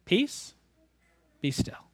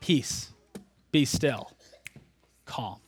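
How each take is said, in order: First: Soft "Peace" rising, "be still" falling quiet; gentle quote. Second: Hushed echo. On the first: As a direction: say the three words softly. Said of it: "he says three words". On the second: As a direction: lower and much softer, fading away on "calm". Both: Shown as a demonstration.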